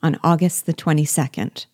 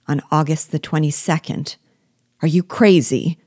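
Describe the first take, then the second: First: Said in the usual way. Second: A touch of terror building to a cry; horrified cry. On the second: A narrator's reading. The slave hears the wedding date, alarmed cry. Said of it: "cried he, with terror and anguish".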